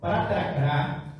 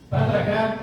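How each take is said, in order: First: It is said at a normal speed. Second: It is said faster.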